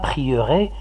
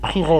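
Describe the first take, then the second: First: The middle E is pronounced as a vowel. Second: The middle E is silent. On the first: The speaker calls it wrong. "Même si le E, il est là, on ne dit pas prierai" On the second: The speaker calls it right. "comme s'il n'y a pas de E"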